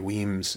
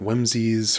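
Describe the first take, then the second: First: The name is said with one syllable. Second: The name is said with two syllables. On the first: The speaker calls it right. "but yeah, Lady Weems Jig" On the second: The speaker calls it wrong. "I pronounced Lady Weems Jig wrong. I called it Whimsies"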